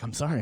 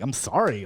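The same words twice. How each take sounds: First: It sounds soft and apologetic. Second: It sounds sharp and defensive. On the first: He is truly sorry. "He's a little more apologetic" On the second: He feels he did nothing wrong. "like a little more defensive about it"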